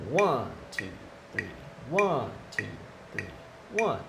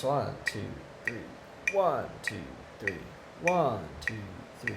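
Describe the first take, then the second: First: Steady count, accent lands on one. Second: Counting along, accent falls on one. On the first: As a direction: count again, one stressed over two three. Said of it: "where that accent lies". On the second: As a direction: count one two three, leaning on one. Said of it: "there's an accent every three notes". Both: Shown as a demonstration.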